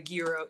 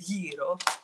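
First: The word is pronounced the common English way. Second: The word is pronounced the Greek way. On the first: The speaker calls it wrong. "it's not a gyro" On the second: The speaker calls it right. "it's a gyro"

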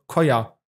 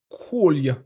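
First: The L sound is dropped from the name. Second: The L sound is clearly pronounced. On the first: The speaker calls it wrong. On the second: The speaker calls it right.

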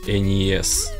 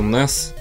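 First: It is said as separate letter names. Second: It is said as one word, like 'ness'. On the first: The speaker calls it right. "А правильно говорить Энис" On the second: The speaker calls it wrong. "Всю жизнь говорю Нес"

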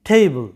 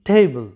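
No difference in how they are said.

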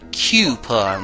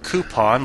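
First: The word begins with a 'cue' sound. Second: The word begins with a plain 'coo' sound. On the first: "like a cube" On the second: "like the way I say it"

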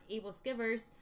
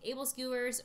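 First: The second word sounds like 'skivers'. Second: The second word sounds like 'skewers'. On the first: "My friend calls it able skivers" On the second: "we say able skewers, but that's not the right way to pronounce it"

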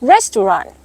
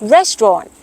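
First: It is said in an American accent. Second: It is said in a British accent. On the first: "สำเนียงอเมริกันออกเสียงว่า" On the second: "คำนี้สำเนียงอังกฤษออกเสียงว่า"

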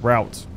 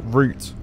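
First: The vowel rhymes with out. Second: The vowel rhymes with boot. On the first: "if you're weird and American. To be fair, like out" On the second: "Why do we say root?"

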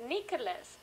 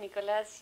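First: The name is said in a foreign way. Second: The name is said the local Spanish way. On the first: This is how the child says his own name. "Pero él en vez de decir Nicolás, dice Nicolas" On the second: This is how people here say the name. "Acá decimos Nicolás Llanos"

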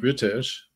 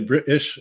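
First: The middle T is a full T sound. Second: The middle T is a glottal stop. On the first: "instead of saying British" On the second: "people say British"

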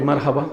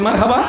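First: The word is said at normal, softer volume. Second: The word is said louder than before. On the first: "একবার বলি" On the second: "আর একটু জোরে বলি"

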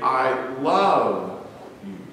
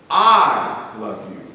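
First: The stress is on "you". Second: The stress is on "I".

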